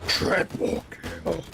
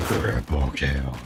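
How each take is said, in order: First: Slow, drawn-out announcer call. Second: Much lower, slow announcer boom; deep announcer voice. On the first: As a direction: boom it out like an arena announcer. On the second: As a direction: drop low and drag it out like a game announcer. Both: Shown as a demonstration. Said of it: "I could sound like an Unreal announcer".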